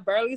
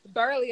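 First: The vowel sounds like 'air', said plainly. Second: The vowel sounds like 'ur', said forcefully.

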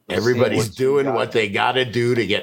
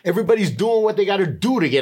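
First: It is read in the speaker's ordinary accent. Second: It is read in a New York accent.

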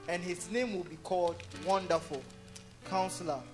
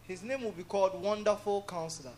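First: There is a pause after Wonderful. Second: Wonderful Counselor runs together without a pause.

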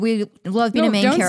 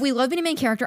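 First: The voice sounds flat and upset. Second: The voice sounds lively and excited. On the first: The speaker calls it wrong. "Don't sound so upset about it" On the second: The speaker calls it right. "Sound more excited"

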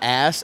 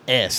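First: The vowel is general American, open a. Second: The vowel is Philadelphia-accented, raised toward e.

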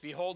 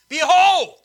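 First: It is said in a calm, even reading voice. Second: It is said loudly and forcefully to grab attention. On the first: The speaker calls it wrong. "I didn't read it like that when I first did it" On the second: The speaker calls it right. "You know how you should read it?"

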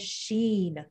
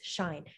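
First: It is said as one syllable rhyming with seen. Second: It is said as one syllable rhyming with fine. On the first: "I know someone who says Sheen" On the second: "a lot of people pronounce it as Sheen or Shine"

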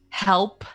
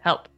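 First: The word is said clearly with every sound. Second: The word is said unclearly with sounds missing. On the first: This is how the child says it now. The speaker calls it right. "her enunciation ... of her words have really blossomed" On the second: This is how the child used to say it. The speaker calls it wrong. "instead of"

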